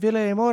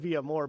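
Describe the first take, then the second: First: The name is said with an L sound. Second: The name is said without an L sound. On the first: The speaker calls it right. "I've never said it that way" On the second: The speaker calls it wrong. "we've always said Via More"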